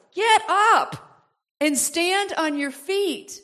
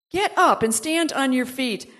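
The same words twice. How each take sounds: First: Preacher's slowed charge; slow emphatic command. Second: Said in the usual way. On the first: Shown as a demonstration. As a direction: get up and stand on your feet drawn out slowly. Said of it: "But get up and stand on your feet".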